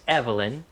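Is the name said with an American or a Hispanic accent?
American. The name is said with an American accent.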